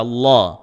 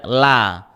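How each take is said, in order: First: "la" dark and rounded, close to "lo"; thick lam. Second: "la" with light l and open a; plain bright-vowelled "la", unthickened; wrong thin lam. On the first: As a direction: say "la" with the tongue back raised. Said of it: "itu dibaca la". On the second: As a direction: show the mistake, a flat-tongued "la". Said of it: "tidak dibaca la". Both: Shown as a demonstration.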